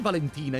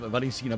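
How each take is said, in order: First: The name is said as Valentina. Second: The name is said as Valencina. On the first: The speaker calls it wrong. "did I say Valentina instead of Valencina?" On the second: The speaker calls it right. "Valencina, by the way"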